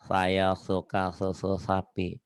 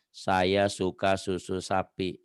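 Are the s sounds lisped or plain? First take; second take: lisped; plain. First: The s sounds are lisped. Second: The s sounds are clear and plain. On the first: "Kalau ngomong cedal" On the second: "kalau ngomong normal kan"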